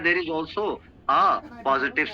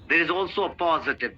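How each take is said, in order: First: There is a break after the word 'a'. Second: The word 'a' runs straight into 'positive'. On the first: The speaker calls it wrong. "ऐसे नहीं बोलना" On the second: The speaker calls it right. "उसको link करना है next word positive से"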